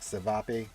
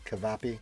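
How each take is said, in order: First: The word begins with an S sound. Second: The word begins with a K sound. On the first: "Unless the C is pronounced with an S" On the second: "like a cut sound"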